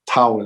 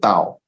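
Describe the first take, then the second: First: The word is said with an English pronunciation. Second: The word is said with a Chinese pronunciation. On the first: "Tao is the English way of saying it" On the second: "Chinese way of Tao"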